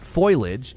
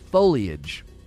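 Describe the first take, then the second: First: The word sounds like 'foil-age', two syllables. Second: The word sounds like 'fo-lee-age', three syllables. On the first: The speaker calls it wrong. "It's not foliage" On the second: The speaker calls it right. "It's foliage. Look at where the eye is"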